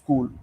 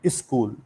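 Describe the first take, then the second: First: It is said with a standard English pronunciation. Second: It is said with an Uttar Pradesh regional accent. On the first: "the actual pronunciation is" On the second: "from U P they will call"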